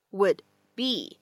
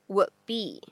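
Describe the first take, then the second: First: Said in the usual way. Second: "would be" with the D left unreleased; lost plosion. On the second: Shown as a demonstration. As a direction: swallow the D of "would" before "be". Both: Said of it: "会有一个失去爆破的处理".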